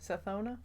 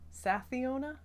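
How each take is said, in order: First: The name has no extra syllable, three in all. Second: The name has an extra syllable, four in all. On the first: The speaker calls it right. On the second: The speaker calls it wrong.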